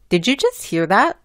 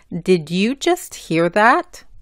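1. Las palabras se dicen rápido y se juntan. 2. Cada palabra se pronuncia clara y por separado. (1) "Hablando rápidamente y juntando las letras" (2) "hablando bien"

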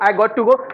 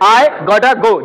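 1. Got to को दो पूरे शब्दों की तरह बोला जाता है। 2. Got to एक शब्द में मिल जाता है, gotta। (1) "ये बोलने की जरूरत नहीं है" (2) "इस पूरे को काट के बना है गॉटा, इसकी शॉर्ट फॉर्म है"

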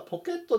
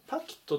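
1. 最初の母音は'o'の音です。日本語風ですね。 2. 最初の母音は'a'の音です。英語風ですね。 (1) "ポケットではなくて" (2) "パキットっていうふうに発音聞こえる"

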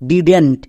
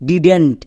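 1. একটি সংকুচিত শব্দ হিসেবে বলা হয়। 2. একটি সংকুচিত শব্দ হিসেবে বলা হয়।

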